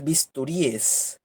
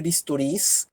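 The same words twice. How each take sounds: First: "bisturíes" with stressed I, then separate -es; plural in ES. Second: "bisturís" with stressed final -rís; plural in S. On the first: Teacher showing the second accepted plural, "bisturíes" ending in a separate -es. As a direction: say "bisturíes" in four syllables, ending rí-es. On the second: Teacher showing the first accepted plural, "bisturís" ending in stressed -rís. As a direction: say "bisturís" in three syllables, S straight after the stressed I. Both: Shown as a demonstration. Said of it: "los que admiten S y E S".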